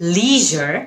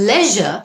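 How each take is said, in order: First: It is said with an American pronunciation. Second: It is said with a British pronunciation. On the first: "American" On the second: "British"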